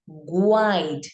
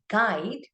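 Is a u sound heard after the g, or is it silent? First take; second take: heard; silent. First: A u sound is heard after the g. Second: No u sound is heard after the g. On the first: The speaker calls it wrong. "and not as guide" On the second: The speaker calls it right. "we rather read this word as guide"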